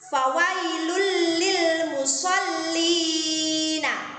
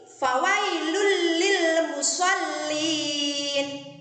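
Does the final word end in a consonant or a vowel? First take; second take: vowel; consonant. First: The last word ends with an "a" vowel. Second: The last word ends on a bare consonant. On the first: The reading continues into the next verse. "Itu kalau diwasolkan" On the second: The reading stops at this point. "Kalau diwakafkan atau dimatikan"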